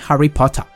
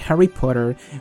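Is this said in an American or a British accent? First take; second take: British; American. First: It is said in a British English accent. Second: It is said in an American English accent. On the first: "ellos hablan el inglés británico" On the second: "yo lo digo así súper"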